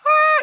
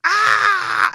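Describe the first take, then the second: First: Short, very high, loud scream; quick high shriek without pain; high thin scream. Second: Loud high scream of pain; hurting scream. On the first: Man showing how not to scream, high shriek. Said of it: "you can't just be like". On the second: Man showing how it must hurt, pained scream. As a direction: scream so that it hurts. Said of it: "it has to, like, hurt". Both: Shown as a demonstration.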